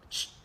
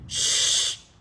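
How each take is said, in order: First: The shush is quick and short. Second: The shush is drawn out and long.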